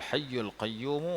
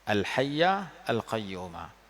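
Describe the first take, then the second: First: The words are read with a 'u' vowel. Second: The words end with an 'a' vowel. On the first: "kalau nak baca dengan dhammah pun boleh juga"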